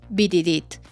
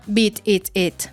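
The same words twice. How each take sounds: First: It is said fast and loosely, words running together. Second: It is said slowly with each word clear. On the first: "cuando suena rápido, flojo y mal" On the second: "Y está bien"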